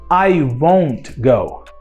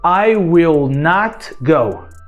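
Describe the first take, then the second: First: Will not is said as one contracted word. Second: Will not is said as two full words. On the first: "Negativa, contração"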